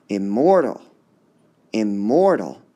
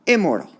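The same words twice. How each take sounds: First: "Immortal" as im-MOR-tal, middle loud and lifted; stress on middle syllable. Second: "Immortal" wrongly stressed as IM-mor-tal, high start falling away; stress on first syllable. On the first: Teacher returns to the natural option, stress on MOR in "Immortal". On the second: Teacher tests a wrong option, stress on IM in "Immortal". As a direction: hit IM in "Immortal", drop the rest. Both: Shown as a demonstration. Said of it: "Which part would be stressed?".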